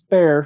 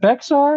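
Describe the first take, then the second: First: The name is said as one syllable, 'bear'. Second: The name is said with an x sound, 'bex-ar'. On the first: The speaker calls it right. "it's Bear" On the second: The speaker calls it wrong. "Is it Bexar? And well, no"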